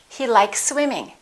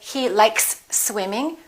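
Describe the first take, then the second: First: Likes and swimming are blended with no break. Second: There is a break between likes and swimming.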